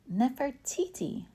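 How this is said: The name is said confidently.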